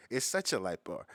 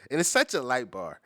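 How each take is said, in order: First: Said in the usual way. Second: Loud, higher burst of hype on such; excited exclamation. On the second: Real, not acted. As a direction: blurt it out, hyped by the bar. Hyped reaction to a bar.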